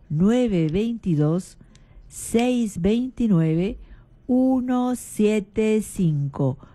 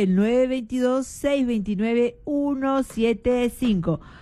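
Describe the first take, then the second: First: The number is said slowly. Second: The number is said fast.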